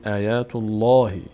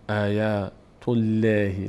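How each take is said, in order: First: The L in Allah sounds full and heavy. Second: The L in Allah sounds thin and light. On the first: The speaker calls it right. "پر خوانده میشد" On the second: The speaker calls it wrong. "نمیگفتیم آیات الله"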